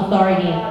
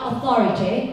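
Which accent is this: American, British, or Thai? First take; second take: American; British. First: Spoken in a relaxed American accent, soft T. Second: Spoken in a British accent with a crisp T. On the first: "ถ้าเป็นคนอเมริกันก็แบบชิวๆ" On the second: "ถ้าเป็นแบบอังกฤษก็"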